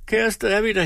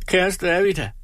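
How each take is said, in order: First: Higher, tearful plea repeated; lightly voiced weeping woman; crying. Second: Higher, tearful plea; lightly voiced weeping woman; crying. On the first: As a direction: beg through mock tears. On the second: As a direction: plead through mock tears. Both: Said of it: "nu græd Tripstine".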